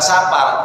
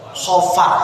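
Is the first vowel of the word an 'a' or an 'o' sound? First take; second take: a; o. First: The first vowel is an open 'a' sound. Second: The first vowel is a rounded 'o' sound. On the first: The speaker calls it wrong. "harusnya bukan Sapar" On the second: The speaker calls it right. "Kalau orang Jawa identik dengan O"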